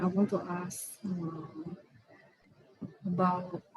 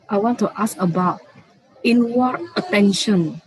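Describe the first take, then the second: First: Soft, hesitant question with long gaps; too quiet. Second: Speaking up. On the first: Student asking the teacher a question, too quietly. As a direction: ask it softly, feeling for the words. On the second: Student repeating the question for the teacher, speaking up. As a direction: raise your voice to be heard. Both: Real, not acted. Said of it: "Can you speak a little bit louder?".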